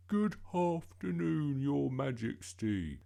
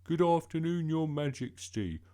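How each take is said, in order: First: Slow, high, loud, as if chewing gum; affected polite voice. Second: Put-on loud, high, brisker boy's greeting; hurried greeting. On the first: Bertie practising on Mum as Queen, absurdly polite and slow. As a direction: put on exaggerated politeness, vowels drawn out. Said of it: "got a mouthful of chewing gum". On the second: Bertie retrying after Mum said hurry up, briskly. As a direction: get the polite greeting over quickly. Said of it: "And hurry up". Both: A narrator's reading.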